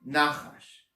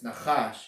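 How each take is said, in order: First: "nachash" with the first syllable stressed, NA-chash. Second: "nachash" with the second syllable stressed, na-CHASH; quick first syllable, weight on the end of "nachash". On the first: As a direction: hit the opening syllable of "nachash", let the second fall away. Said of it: "the emphasis is on the first syllable". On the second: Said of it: "the emphasis is on the second syllable". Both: Shown as a demonstration.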